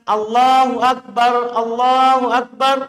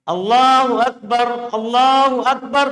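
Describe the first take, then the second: No difference in how they are said.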